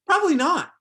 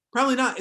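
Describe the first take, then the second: First: Much higher, louder, emphatic Probably not; punchy answer. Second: Said in the usual way. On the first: Real, not acted. Speaker answering the class's imagined question, loud and emphatic. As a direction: bark the answer to the room, high and loud.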